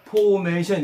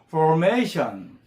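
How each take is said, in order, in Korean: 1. 한국식으로, r 소리 없이 발음해요. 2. 영어식 r 소리로 발음해요. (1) "우리말로 formation 이렇게 하지 말고" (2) "R 발음이 있으니까 혀가 유천장에 닿을까 말까"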